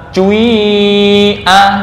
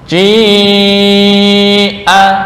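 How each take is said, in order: First: The first vowel starts with u, then becomes i. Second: The first vowel is a plain i sound.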